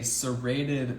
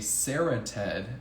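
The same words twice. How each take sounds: First: It does not sound like 'Sarah Ted'. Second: It sounds like the names 'Sarah Ted'. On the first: The speaker calls it right. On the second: The speaker calls it wrong.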